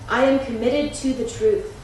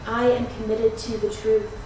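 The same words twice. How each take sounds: First: It is spoken aloud at full volume. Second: It is spoken aloud very quietly. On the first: "both aloud" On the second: "More quietly still"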